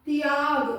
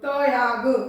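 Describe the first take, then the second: First: The t joins the y in one cluster. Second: The t is said as its own full syllable. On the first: The speaker calls it right. "मैंने त पूरा नहीं बोला" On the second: The speaker calls it wrong. "उसमें आपका त पूरा है"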